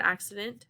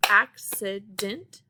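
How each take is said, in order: First: Said in the usual way. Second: ACCIDENT slowly broken into three separate syllables. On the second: Shown as a demonstration. Teacher counting syllables for the class, "accident" said slowly in three parts. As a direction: sound out "accident" slowly, one syllable at a time. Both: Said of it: "has three syllables".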